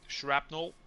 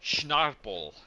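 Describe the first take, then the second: First: It begins with 'shr' in the usual order. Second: It begins with 'schn' and swaps the middle sounds. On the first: The speaker calls it right. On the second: The speaker calls it wrong.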